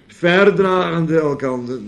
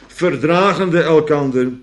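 First: The stress is on the first syllable. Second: The stress is on the second syllable.

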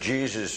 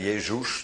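First: The name is pronounced the English way. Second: The name is pronounced the German way. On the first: "Engelsen zeggen Jesus" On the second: "de Duitsers zeggen Jezus"

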